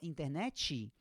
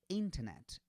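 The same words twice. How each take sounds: First: An extra vowel sound follows the final t. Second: The word ends sharply on the final t. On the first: The speaker calls it wrong. "Se você fala internet, o que, que acontece?" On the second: The speaker calls it right. "É sempre seco"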